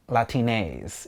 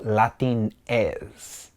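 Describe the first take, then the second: First: "Latines" said slowly as la-tee-NEZ in English; "Latines" with an anglicized "ays" ending; English pronunciation. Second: Put-on "Latines" said slowly as la-TEEN-es; "Latines", drawn out, the Spanish way; Spanish pronunciation. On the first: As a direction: say "Latines" the English way, long last vowel. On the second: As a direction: say "Latines" with a short Spanish "es" ending. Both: Shown as a demonstration. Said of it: "in English".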